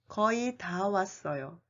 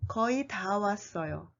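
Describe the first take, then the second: Both takes have the same delivery.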